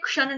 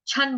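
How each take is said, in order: First: The syllable begins with a ksh sound. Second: The syllable begins with an aspirated ch sound. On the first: The speaker calls it wrong. "क्षण नहीं बोलेंगे" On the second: The speaker calls it right. "छन बोलेंगे"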